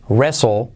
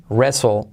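No difference in how they are said.

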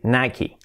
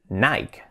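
First: It ends with an extra 'ee' vowel. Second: It ends without an extra final vowel. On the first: The speaker calls it right. "se pronuncia así, Nike. Le añaden una I al final" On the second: The speaker calls it wrong. "que tendemos a decir Nike"

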